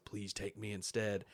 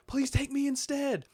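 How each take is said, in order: First: Understated evil mockery; smiling mimicry. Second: High, loud pleading shout; impassioned, urgent begging; desperate plea. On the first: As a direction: copy the plea quietly with a smile. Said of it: "he says it with a smile". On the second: Acted. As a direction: cry out, offering yourself in his place. Acting out Batman's plea, then copied.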